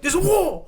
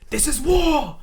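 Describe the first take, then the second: First: The phrase is said very quickly. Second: The phrase is said at a normal pace.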